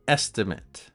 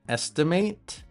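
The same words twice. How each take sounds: First: The last syllable is pronounced like "it". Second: The last syllable is pronounced like "ate". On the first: It is used as a noun. "and the noun is it" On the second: It is used as a verb. "the verb pronunciation is ate"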